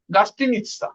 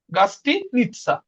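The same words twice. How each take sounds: First: Said in the usual way. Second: গাস্তিনিৎসা slowly, with a break before "nitsa"; slow syllable-split demo. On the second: Shown as a demonstration. Teacher repeating the word for hotel to learners, গাস্তিনিৎসা slow and split.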